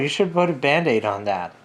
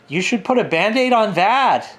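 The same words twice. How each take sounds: First: The voice falls at the end. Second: The voice rises at the end. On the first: "She wouldn't say it that way" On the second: "Everything like ended in this high note"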